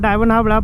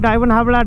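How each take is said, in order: No difference in how they are said.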